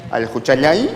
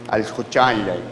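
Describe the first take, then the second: First: Juchayay with a rise at the end; first pronunciation. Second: Al juchayay falling and lower; second pronunciation. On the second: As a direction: let juchayay fall low. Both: Shown as a demonstration. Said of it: "según la pronunciación, cambia el significado".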